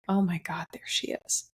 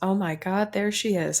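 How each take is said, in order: First: The tone sounds wistful and sad. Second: The tone sounds happy and delighted. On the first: The speaker recalls a shared past with longing. "there's this sense of remembering all the life that I got to live with her" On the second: The speaker is glad to see the resemblance. "and I'm so happy to see her"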